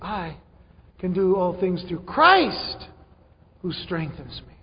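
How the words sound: The stress falls on 'Christ'. The focus is on the source of the strength. The speaker calls it right. "When the emphasis should be"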